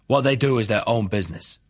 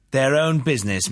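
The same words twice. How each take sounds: First: Said in the usual way. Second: "Their own business" higher, thrown back; challenging echo. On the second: A narrator's reading. Prosecutor throws witness's "Their own business" back, challenging.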